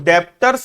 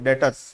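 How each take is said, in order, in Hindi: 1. t से पहले b जैसी ध्वनि सुनाई देती है। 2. t से पहले b की कोई ध्वनि सुनाई नहीं देती। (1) "इसको डेप्टर्स नहीं पढ़ते ना, डेप्टर बी साइलेंट होता है" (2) "डेटर्स पढ़ते हैं"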